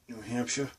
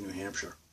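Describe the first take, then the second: First: It is said in a Boston accent. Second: It is said in a neutral accent. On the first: "when I'm saying, well" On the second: "I can just say New Hampshire instead"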